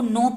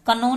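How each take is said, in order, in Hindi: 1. शब्द n की आवाज़ से शुरू होता है। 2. शब्द k की आवाज़ से शुरू होता है। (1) "इसको हमको नो पढ़ना है" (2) "कनो नहीं पढ़ना है"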